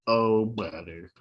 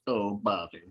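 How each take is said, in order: First: Slow, low droopy groan; droopy dog voice. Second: Low, droopy mopey voice; droopy dog voice. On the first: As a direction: drag it out like a mopey dog. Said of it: "mine all sound like droopy dog". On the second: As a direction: sad sack cartoon dog. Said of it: "Like a droopy dog voice". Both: Acted.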